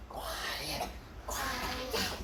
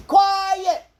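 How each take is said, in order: First: Whispered under the breath; whispering. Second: Loud, high call. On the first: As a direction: breathe the word without voice. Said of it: "whispered demo of quiet". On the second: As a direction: call the word out loudly. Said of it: "loud take of quiet". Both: Shown as a demonstration.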